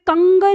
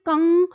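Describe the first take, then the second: First: It ends with a fully pronounced g sound. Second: It ends in a nasal sound without g. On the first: The speaker calls it wrong. "कंग नहीं पढ़ेंगे, फिर ग का उच्चारण नहीं" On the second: The speaker calls it right. "अंदर नाक तक रहेगी ध्वनि"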